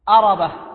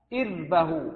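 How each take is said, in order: First: It starts with a and the r has a vowel. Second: It starts with i and the r has no vowel. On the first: It refers to need or desire. "بفتح الهمزة والراء" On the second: It refers to the bodily organ. "بكسر الهمزة وإسكان الراء"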